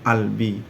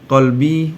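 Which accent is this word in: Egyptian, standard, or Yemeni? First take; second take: Egyptian; standard. First: It is said in an Egyptian accent. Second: It is said in a standard accent.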